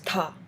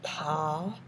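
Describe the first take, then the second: First: It is said with the fourth tone. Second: It is said with the third tone. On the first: "And fourth is" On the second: "third is"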